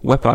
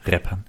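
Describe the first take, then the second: First: The word begins with a W sound. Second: The word begins with an R sound. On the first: The speaker calls it wrong. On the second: The speaker calls it right.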